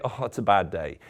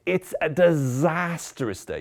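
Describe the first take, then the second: First: Said in the usual way. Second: Disastrous drawn out slowly, hammed up; milk the word disastrous, slow and heavy; stress on disastrous. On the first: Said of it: "Never just say". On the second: Shown as a demonstration. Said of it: "Use the word disastrous".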